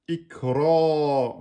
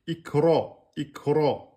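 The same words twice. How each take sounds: First: IKRA with the last vowel held for two beats; long, sustained emphatic ra at the end of IKRA. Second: IKRA with a heavy r, the a darkened toward "o"; short IKRA, ending on a full-mouthed emphatic "raw". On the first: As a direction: stretch the dark "raw" ending of IKRA. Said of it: "on a bien deux temps". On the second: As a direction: say IKRA with a thick r and a short final vowel. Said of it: "donc elle devient emphatique". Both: Shown as a demonstration.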